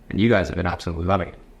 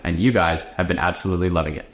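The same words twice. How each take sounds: First: It is read quietly in a flat voice. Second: It is delivered outward with lively energy. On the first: The line is just being read over. "See how I like read it" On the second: The line is performed for an audience. "then read it to the camera"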